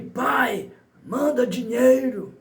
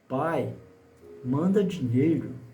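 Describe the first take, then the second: First: It sounds like a rude, demanding order. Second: It sounds like a soft, worried plea.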